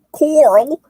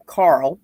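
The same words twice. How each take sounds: First: Carl drawn into a high, loud "Coral"; mock "Coral", pitched way up; mock pronunciation. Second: Said in the usual way. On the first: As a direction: exaggerate the name as "Coral". Mock pronunciation of Carl's name.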